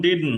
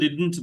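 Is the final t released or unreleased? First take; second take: unreleased; released. First: The final t is cut short. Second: The final t is fully released. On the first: The word is said inside a sentence. "যখন সেন্টেন্সে চলে আসে তখন ডিডন্ট হয়ে যায়" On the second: The word is said on its own. "একা বললে হয়তো ডিডন্ট বলবে"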